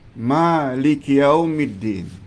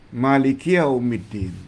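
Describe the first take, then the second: First: The first vowel of Maliki is held long. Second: The first vowel of Maliki is kept short. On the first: The one who owns the Day of Judgement. "kita baca panjang" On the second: The one who is king of the Day of Judgement. "biasanya mereka baca pendek"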